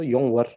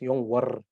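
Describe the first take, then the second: First: The r is rolled only lightly and briefly. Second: The r is rolled strongly and long. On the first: The speaker calls it right. "the sound is more of a round r sound" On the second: The speaker calls it wrong. "you don't roll it too much. Otherwise, it becomes yongwar. It's too much"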